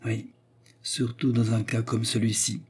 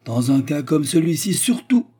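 First: Calm, understated echo; pensive agreement. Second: High, loud, climbing to the end; insist, pushing up on SURTOUT; indignant rising emphasis; emphatic insistence. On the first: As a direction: agree thoughtfully and evenly. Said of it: "levant son regard pensif sur elle". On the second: Treumann insists, Anna echoes it calmly. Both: A narrator's reading.

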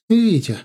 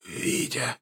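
First: High, loud woman's call; sudden sharp cry of a name. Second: Voiceless, faint rasp; wounded old man's wheeze; hoarse wheeze. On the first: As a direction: shout the name in alarm, pitched up. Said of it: "крикнула Наташа". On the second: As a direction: croak the name out with barely any breath. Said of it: "прохрипел он". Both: A narrator's reading.

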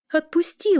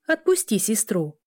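First: High-pitched protest; protesting squeal. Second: Firm warning at a near-usual pitch; motherly warning. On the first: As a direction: demand release in a much higher voice. Sister protests at brother's grip. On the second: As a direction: scold the son with restraint. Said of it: "Вэлла пригрозила тому пальцем". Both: A narrator's reading.

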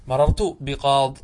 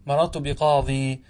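First: Slow بقاض stopped on the d sound; ya dropped. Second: Slow بقاضي with long final ee; ya kept. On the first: Teacher shows pausing by deletion, bi-qaad without ya. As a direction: end بقاض with no ee, slowly. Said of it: "تحذف الياء". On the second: Teacher shows the permitted alternative, bi-qadi with long ee. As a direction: hold the ee at the end of بقاضي. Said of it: "ويجوز الوقف عليه بإثبات الياء". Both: Shown as a demonstration.

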